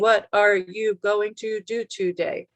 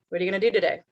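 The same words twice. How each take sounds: First: Each word is pronounced separately and fully. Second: The words are fast and run together. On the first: The speaker calls it wrong. "That's not how anybody talks" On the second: The speaker calls it right. "it's really fast and it's all smushed together"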